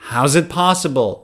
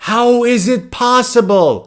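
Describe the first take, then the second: First: The words are linked and said fast. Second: Each word is said separately and fully.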